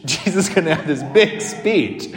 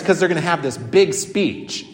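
First: Laughs through the line in amused disbelief; laughing. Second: Said in the usual way. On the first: Real, not acted. Chuckling while speaking. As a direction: priest telling his congregation about the show, laughing at it.

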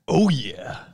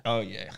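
First: Big, drawn-out mascot voice; Kool-Aid Man impression. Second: Said in the usual way. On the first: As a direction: boom it out like a drink mascot. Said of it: "That's Kool-Aid".

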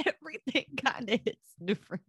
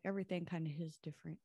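First: Higher and louder through a laugh. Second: Said in the usual way. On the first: Real, not acted. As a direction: say it again while cracking up. Repeats the line, laughing.

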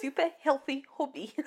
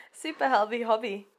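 First: Quick South African accent attempt. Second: Said in the usual way. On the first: Shown as a demonstration. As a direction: try it South African style. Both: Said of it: "Say it in a South African accent".

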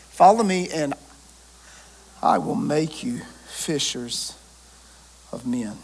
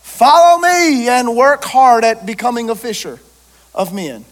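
First: Soft, slow, lower second reading; gentle repeat. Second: Loud, ringing proclamation of the call; proclaimed quote. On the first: Preacher repeating the call gently to the congregation, slow and soft. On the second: Preacher proclaiming Jesus' call to the crowd, loud and ringing. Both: Acted.

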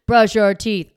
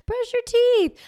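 First: "Brush your teeth." barked much louder at usual pitch; imitated parent snapping "Brush your teeth." loud; mock yell. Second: Much higher, strained "Brush your teeth."; last sweet-high try at "Brush your teeth."; high pleading command. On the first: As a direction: drop the sweetness and bark it. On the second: Retold or imitated. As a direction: plead the order up high, sing-song. Acted parent escalating.

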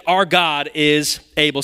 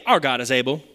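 First: "Our God is able" said slowly, leaning on "Our"; slow emphatic declaration. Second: Said in the usual way. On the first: Shown as a demonstration. Preacher declaring the verse to the congregation, slowly and firmly. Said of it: "The next thing that they say is". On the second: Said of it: "Somebody say".

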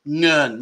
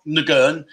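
First: Ngern with one blended ng sound at the start, ngern; right pronunciation. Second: Ngern said with a separate hard g, as nuh-gern; wrong pronunciation. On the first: Showing viewers the right Thai Ngern, one ng sound. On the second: Showing viewers the wrong way to say Ngern, nuh-gern. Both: Shown as a demonstration. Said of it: "the way you say the N and G's together".

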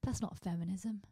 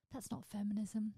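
Both takes have the same delivery.

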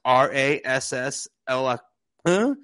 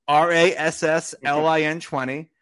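First: Voice cracking. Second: Said in the usual way. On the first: Real, not acted. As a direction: crack upward while spelling out a code. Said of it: "my voice cracked for that". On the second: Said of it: "Sorry, my voice cracked for that".

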